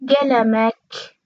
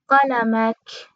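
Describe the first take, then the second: First: گلمک said slowly as gelamak, with hard g; slow teacher's demo of گلمک as gelamak; g variant. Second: قلمک said slowly as qalamak, with q; slow teacher's demo of قلمک as qalamak; q variant. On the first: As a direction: start گلمک on g in place of q. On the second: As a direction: start قلمک on a back q, stretched out. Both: Shown as a demonstration. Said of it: "یا".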